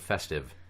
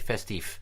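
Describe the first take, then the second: First: The word ends with a v sound. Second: The word ends with an f sound. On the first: The speaker calls it right. "Like the word festive" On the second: The speaker calls it wrong. "We're not Scandinavians. We don't say festif"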